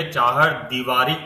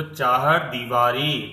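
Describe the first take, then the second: First: दीवारी with short दि and रि; wrong demo of चाहर दीवारी; wrong short vowel. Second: चाहर दीवारी slowed, long दी and री; corrected model of चाहर दीवारी; correct long vowel. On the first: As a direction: say दीवारी with quick clipped vowels. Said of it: "अगर हम इसको बोलेंगे चाहर दीवारी तो क्या हो जाएगा". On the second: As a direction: hold the ई in दीवारी. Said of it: "गलत उच्चारण हो जाएगा". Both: Shown as a demonstration.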